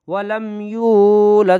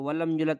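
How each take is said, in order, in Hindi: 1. 'y' के बाद का स्वर लंबा है। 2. 'y' के बाद का स्वर छोटा है। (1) "या पूरी खिंचेगी" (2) "बच्चे इसमें गलती ये करते हैं ... यहाँ ये गलत है"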